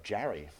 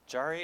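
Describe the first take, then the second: First: Jarry said with a flat a, like jam; Jarry with a New York a, rhymes with marry; New York pronunciation. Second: Jarry said slowly, with an open ah like jar; Jarry drawn out with the ah of father; correct pronunciation. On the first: Real, not acted. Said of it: "that's my residual New York accent". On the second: Shown as a demonstration. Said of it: "Jarry is a twice-a-year".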